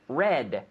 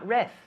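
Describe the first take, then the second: First: The word ends in a clear D sound. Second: The word ends in a soft th sound. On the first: The speaker calls it right. "Now the D is very important" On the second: The speaker calls it wrong. "Not reth"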